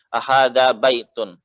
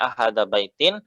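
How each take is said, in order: First: The last word ends with an -un sound. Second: The last word ends with an -in sound. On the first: It follows the grammar rule. The speaker calls it right. "kaidah nahwunya seperti itu" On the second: The listener may misunderstand the meaning. The speaker calls it wrong. "Kalau antum bacanya ahada baitin, nanti lawan bicara bisa salah paham"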